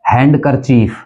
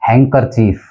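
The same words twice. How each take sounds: First: हैंडकरचीफ with a sounded D; हैंडकरचीफ as HAND-ker-cheef; common mispronunciation. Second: हैंकरचीफ as HANG-ker-cheef; हैंकरचीफ going from nasal straight to K; silent D. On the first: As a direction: pronounce the D in हैंडकरचीफ. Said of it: "जो गलत बोला जाता है". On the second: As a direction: drop the D in हैंकरचीफ. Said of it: "डी इसके अंदर silent है". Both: Shown as a demonstration.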